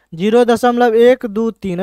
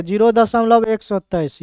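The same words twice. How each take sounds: First: zero दशमलव एक दो तीन with each digit read separately. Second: zero दशमलव एक सौ तेईस read as a whole number after the point; wrong reading. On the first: Teacher showing students the right reading, digit by digit. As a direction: read एक दो तीन one digit at a time, as correct. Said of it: "ऐसे पढ़ेंगे". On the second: Teacher showing students the wrong way to read it. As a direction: say एक सौ तेईस as one hundred twenty-three, the wrong way. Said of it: "ये पढ़ना गलत है". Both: Shown as a demonstration.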